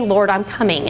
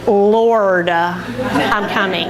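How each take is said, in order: First: It is said willingly, without hesitation. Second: It is said reluctantly, with a hesitant pause. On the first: The interruption is welcomed as holy. The speaker calls it right. "that could be God. This could be Jesus" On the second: The interruption is resented as a chore. The speaker calls it wrong. "you can't say it like"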